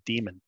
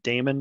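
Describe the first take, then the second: First: The first syllable sounds like 'dee'. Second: The first syllable sounds like 'day'. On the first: The speaker calls it right. "it's actually proper to pronounce that demon" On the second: The speaker calls it wrong. "Sometimes I hear people pronounce it daemon"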